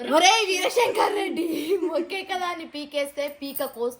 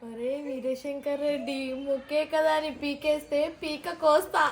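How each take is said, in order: First: It is said angrily. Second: It is said with pity.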